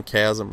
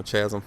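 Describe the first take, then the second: First: Chasm said with a hard K, "KAZ-um"; hard K pronunciation. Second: Chasm said with a soft CH, "CHAZ-um"; soft CH mispronunciation. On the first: Gamer trying out the map name, Chasm with a hard K. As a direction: start Chasm with a K sound. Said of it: "I think it's Chasm is how you pronounce it". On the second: Gamer offering his old mistaken version, Chasm with a soft CH. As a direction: start Chasm with CH as in chat. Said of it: "when I was calling it Chasm". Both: Shown as a demonstration.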